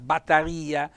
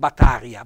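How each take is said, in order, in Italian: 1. L'accento cade sulla i. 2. L'accento non cade sulla i. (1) "un bel accento tonico sulla I" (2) "non Battaria"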